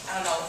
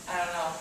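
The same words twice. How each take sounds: The two takes are said the same way.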